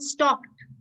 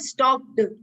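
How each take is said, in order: First: The word ends with a t sound. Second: The word ends with a d sound. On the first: The speaker calls it right. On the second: The speaker calls it wrong. "not stocked"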